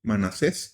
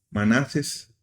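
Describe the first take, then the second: First: "Manasés" stressed on the last syllable, ma-na-SÉS; "Manasés" with the accent on the final E, ma-na-SÉS. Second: "Manases" with stress on the middle syllable, ma-NA-ses; "Manases" without the final-syllable accent; unaccented slip. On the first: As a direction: correct it to "Manasés", leaning on the final E. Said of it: "porque lleva acento, eh, en la última E". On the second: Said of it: "porque lleva acento". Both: Shown as a demonstration.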